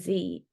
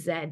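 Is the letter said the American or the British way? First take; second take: American; British. First: The letter is said the American way. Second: The letter is said the British way.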